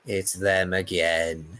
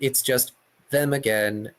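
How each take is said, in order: First: It is said in an impression of Roz. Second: It is said in the speaker's normal voice.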